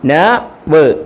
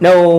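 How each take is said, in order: First: The two sounds are said separately with a gap. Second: The two sounds are blended quickly into one syllable. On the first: The speaker calls it wrong. "അങ്ങനല്ല, അങ്ങനെ ഇനി വായിക്കരുത്" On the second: The speaker calls it right. "സ്പീഡിൽ സ്പീഡിൽ വായിക്കാം"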